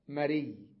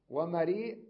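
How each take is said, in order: First: مري ending on a doubled y, no glottal stop; مري softened; hamza dropped. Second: ومريء said with a clear glottal stop at the end; ومريء with the hamza kept; full hamza. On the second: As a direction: hit the final hamza. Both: Shown as a demonstration. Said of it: "يعني ألفظها هكذا".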